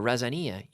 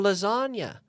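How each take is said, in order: First: It starts with an R sound, stress shifted. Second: It starts with an L sound, usual stress. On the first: The speaker calls it wrong. "she was saying razania" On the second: The speaker calls it right. "oh, you mean lasagna?"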